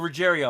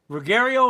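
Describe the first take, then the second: First: The G is said as a soft G. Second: The G is said as a hard G.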